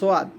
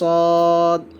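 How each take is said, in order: First: A w-glide follows the first consonant. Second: No w-glide; the vowel is drawn out. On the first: The speaker calls it wrong. "অনেকে কিন্তু সোয়াদ বলি" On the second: The speaker calls it right. "একটু টান দিয়ে উচ্চারণ করবেন"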